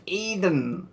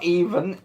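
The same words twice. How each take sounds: First: EDEN, with a clear D in the middle; corrected word with a D. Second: EVEN, with a V sound in the middle; EVEN as the mistaken version, V not D; wrong word with a V. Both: Shown as a demonstration. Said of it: "no, not Even".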